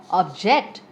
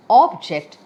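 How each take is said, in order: First: Ob-JECT, stressed on the second syllable. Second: OB-ject, stressed on the first syllable. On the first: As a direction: say object as a verb, strong "ject". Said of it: "stress on the second syllable". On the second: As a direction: say object as a noun, strong "ob". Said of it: "stress on the first syllable". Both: Shown as a demonstration.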